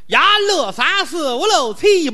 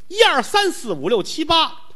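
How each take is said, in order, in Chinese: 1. 这些数字是用河北本地口音数的。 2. 这些数字是用标准普通话数的。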